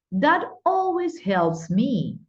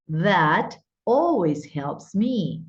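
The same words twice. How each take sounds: First: "That always helps me" pitched high and slow, with "always" peaking then falling; marked intonation. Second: Said in the usual way. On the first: Shown as a demonstration. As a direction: sing out "always" high, then let the tune drop slowly. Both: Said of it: "Fíjense la, la entonación".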